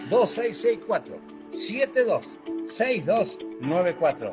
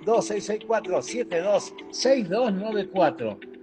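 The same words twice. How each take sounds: First: The number is said slowly. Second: The number is said fast.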